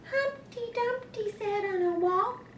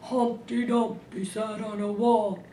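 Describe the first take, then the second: First: It is said in a Baby Bear voice. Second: It is said in a Papa Bear voice.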